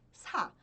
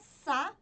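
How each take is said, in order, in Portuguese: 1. O som do s sai com ar extra. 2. O som do s é simples, sem ar extra. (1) "e sim sa... você precisa soltar o ar" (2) "não é sa de sapo"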